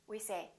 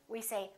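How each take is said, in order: The two takes are said the same way.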